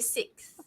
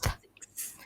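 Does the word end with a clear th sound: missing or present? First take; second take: missing; present. First: The word ends without a clear th sound. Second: The word ends with a clear th sound. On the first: The speaker calls it wrong. "I used to say" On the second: The speaker calls it right. "it should be sixth"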